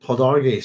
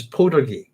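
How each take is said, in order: First: Podarge said slowly as "po-DAR-gee" with a full R; corrected pronunciation of Podarge. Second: Podarge clipped to "po-duh-gee"; first pronunciation of Podarge. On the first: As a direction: Podarge stretched out, stressing "DAR". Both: Real, not acted. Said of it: "that's probably the better pronunciation".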